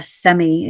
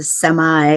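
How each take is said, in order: First: Semi said as "SEM-ee"; wrong semi. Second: Semi said as "SEM-eye", slowly; corrected semi. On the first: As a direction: semi ending in "ee". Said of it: "it's not a semi". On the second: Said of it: "it's a semi". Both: Shown as a demonstration.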